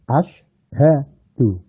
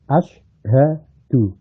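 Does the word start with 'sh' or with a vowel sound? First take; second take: vowel; vowel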